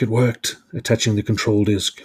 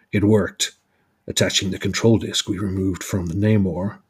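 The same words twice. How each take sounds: First: Said in the usual way. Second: Lightly put-on American accent; a measured attempt at an American hero's accent; Captain America accent. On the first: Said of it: "Sorry, I need to do Captain America accent". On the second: Narrator redoing Captain America's line, lightly American accent. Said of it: "I need to do Captain America accent".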